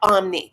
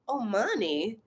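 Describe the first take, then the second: First: The word is said with two syllables. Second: The word is said with three syllables. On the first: The speaker calls it right. "It's O M N I" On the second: The speaker calls it wrong. "I love hearing when people have a wrong um, pronunciation"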